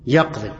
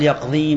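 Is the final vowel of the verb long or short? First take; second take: short; long. First: The word ends short without a long vowel. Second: The word ends with a long final vowel. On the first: The speaker calls it right. "لما حرف جزم" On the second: The speaker calls it wrong. "ما قال يقضي ما أمر، حذف الياء"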